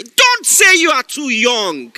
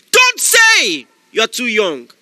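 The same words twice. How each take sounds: First: Loud, slow exhortation; shouted command. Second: Louder shouted command; repeated shouted command. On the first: Preacher commanding the young listener, loud. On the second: Preacher repeating the command to the young listener, louder. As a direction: drive it home even harder. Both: Acted. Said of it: "This is a word for someone".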